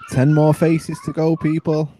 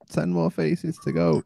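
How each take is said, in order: First: Loud, high, drawn-out progress call. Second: Said in the usual way. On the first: Real, not acted. Host announcing progress to the people, calling out.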